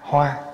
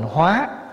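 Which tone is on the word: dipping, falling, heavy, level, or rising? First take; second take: level; rising. First: The word is said with a level tone. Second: The word is said with a rising tone. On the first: A flower. "chữ hoa, H O A" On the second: To transform. "nếu bỏ dấu sắc vô là thành hóa"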